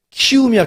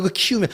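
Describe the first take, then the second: First: 키움이야 called out higher and louder, stress on 키움; emphatic. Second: Said in the usual way. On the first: Shown as a demonstration. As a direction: punch out 키움이야 with a raised voice. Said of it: "emphatic repetition of team name". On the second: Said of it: "repeats the team name calmly".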